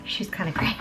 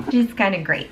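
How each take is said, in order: First: Breathy whispered aside. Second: Said in the usual way. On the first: Real, not acted. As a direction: whisper it like a secret. Whispered aside then repeated aloud.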